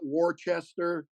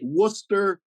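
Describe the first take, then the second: First: The name is said the way outsiders say it. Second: The name is said the way locals say it. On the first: The speaker calls it wrong. "not Worcester" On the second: The speaker calls it right. "Worcester, not Worcester"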